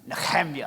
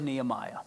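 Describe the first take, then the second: First: The middle consonant is a throaty guttural sound. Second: The middle consonant is a plain soft h.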